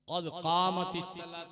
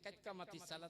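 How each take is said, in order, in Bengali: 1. বাক্যটি 'qad' দিয়ে শুরু হয়, আলাদাভাবে বলা। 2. বাক্যটি 'kait' দিয়ে শুরু হয়, একসাথে জড়িয়ে বলা। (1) "কদ কামাতিস সালাত না বলে" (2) "কাইতকামাতি সালাত কাইত হয়ে গেল নামাজ"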